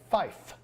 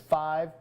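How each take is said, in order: First: The word ends with an f sound. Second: The word ends with a v sound. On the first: "So we say fife" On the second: "you hear how that can sound, that long I sound?"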